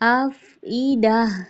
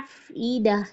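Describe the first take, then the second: First: The middle consonant is a clean glottal stop. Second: The middle consonant is a throaty ain sound. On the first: The speaker calls it right. "तो कैसे हमने करना है" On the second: The speaker calls it wrong. "यहाँ पे भी आ जाती है हमजा की जगह पे आइन की आवाज़"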